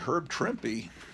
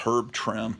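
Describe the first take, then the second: First: The surname ends with an added final vowel sound. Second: The surname ends without a final vowel sound. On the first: This is how the name is actually said. The speaker calls it right. "it's really Herb Trimpy" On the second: This is how the speaker long assumed it was said. The speaker calls it wrong. "I always thought it was Herb Trimp"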